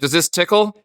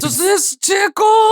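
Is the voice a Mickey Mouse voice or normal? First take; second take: normal; Mickey Mouse. First: It is said in a plain voice. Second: It is said in a Mickey Mouse voice.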